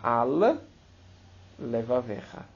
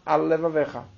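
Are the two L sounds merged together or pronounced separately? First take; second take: separate; merged. First: Said carefully, both L sounds are pronounced separately. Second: Said quickly, the two L sounds merge into one. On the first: The speaker calls it right. "Então você tem que falar al-levavecha, sobre o teu coração" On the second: The speaker calls it wrong. "Se você fala rápido, você fala al-levavecha. Você engoliu a letra lamed"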